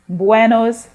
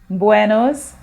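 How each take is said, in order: Both takes have the same delivery.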